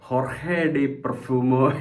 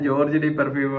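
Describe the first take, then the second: First: The first word starts with an h sound. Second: The first word starts with a j sound. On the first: The speaker calls it right. "എന്നാണ് ഇതിന്റെ പ്രൊനൗൺസിയേഷൻ വരുന്നത്" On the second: The speaker calls it wrong. "ഞാൻ ജോർജ് D പെർഫ്യൂമോ എന്നാണ് പറഞ്ഞുകൊണ്ടിരുന്നത്"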